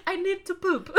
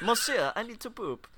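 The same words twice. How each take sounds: First: Put-on high, laughing French accent; French poodle accent. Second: A snooty French poodle asking to poop; French poodle accent. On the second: Retold or imitated. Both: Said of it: "that poodle should not have an accent".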